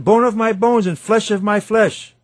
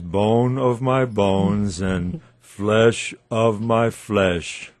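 First: It is said with joyful, astonished excitement. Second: It is said in a flat, unromantic tone. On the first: The speaker is thrilled and amazed. The speaker calls it right. "It's an expression of joyous astonishment" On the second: The speaker feels nothing special. The speaker calls it wrong. "At least not in that tone"

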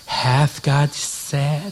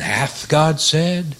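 First: It is said in a put-on voice imitating Satan. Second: It is said in the speaker's normal voice.

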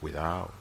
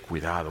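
First: The word has a Dominican Spanish pronunciation. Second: The word has a standard Spanish pronunciation. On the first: "Dominicans, when they are scared about something, we say" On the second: "we don't say cuidado"

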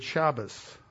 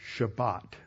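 First: The word ends with an S sound. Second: The word ends with a T sound. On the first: "the final T is pronounced like an S" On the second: "pronouncing the last letter as a T"

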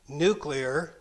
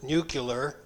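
First: The word is pronounced in the standard way. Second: The word is pronounced as an imitated variant.

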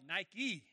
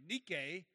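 First: The word is said the English brand way. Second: The word is said with its Greek pronunciation. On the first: It names the shoe company. "They call it Nike" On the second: It names the ancient word for victory. "its Greek pronunciation of Nike"

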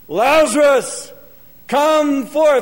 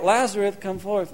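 First: It is said loudly, with force. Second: It is said softly, without force.

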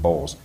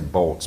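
First: The name is said like 'Bowles'. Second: The name is said like 'Bolts'. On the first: The speaker calls it right. "he actually pronounces it Bowles" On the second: The speaker calls it wrong. "you attempt to say Bolts"

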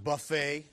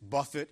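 First: The stress is on the last syllable. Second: The stress is on the first syllable. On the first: A self-service meal. The speaker calls it wrong. "It's not buffet" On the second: To strike or beat something. The speaker calls it right. "that is the right pronunciation. It's buffet"

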